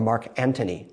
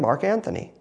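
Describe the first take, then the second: First: The name is said with a plain 't' sound. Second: The name is said with a 'th' sound.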